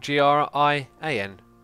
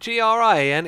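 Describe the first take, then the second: First: The letters are spoken slowly, one by one. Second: The letters are run together quickly.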